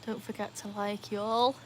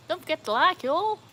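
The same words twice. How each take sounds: First: Softer, put-on American sign-off; American accent. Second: Higher, livelier fake American sign-off; American accent. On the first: Streamer asks viewers to like, soft mock American accent. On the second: Streamer asks viewers to like, higher mock American accent. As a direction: lift it into a perky American "y'all". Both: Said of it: "Is that my good American accent there?".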